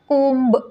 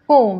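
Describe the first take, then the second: First: The word ends with an audible b sound. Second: The word ends on the m sound alone. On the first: The speaker calls it wrong. "तुम्हाला कोंब नाही म्हणायचं आहे" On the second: The speaker calls it right. "बी letter आहे तो silent आहे"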